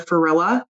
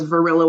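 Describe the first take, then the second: First: The name begins with an F sound. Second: The name begins with a V sound. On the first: A young child could not say the V. The speaker calls it wrong. "I u- used to say F for V" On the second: This is the person's real name. The speaker calls it right. "Varilla with a V"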